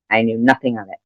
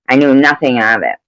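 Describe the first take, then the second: First: Softer, dropped repeat of "I knew nothing of it"; quiet echo to herself; quieter repeat. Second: Firm denial; emphatic. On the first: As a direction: let it fall away, muttered. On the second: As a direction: stress on nothing. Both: Real, not acted.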